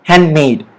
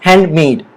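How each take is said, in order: Both takes have the same delivery.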